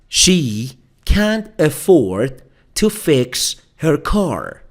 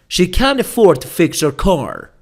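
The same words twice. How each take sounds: First: It is said at a slower pace. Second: It is said at a faster pace.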